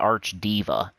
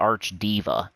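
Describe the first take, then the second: First: The middle sounds like the word 'diva'. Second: The same.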